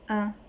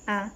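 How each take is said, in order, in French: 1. La voyelle est un a postérieur. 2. La voyelle est un a antérieur. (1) "Postérieur" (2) "Antérieur"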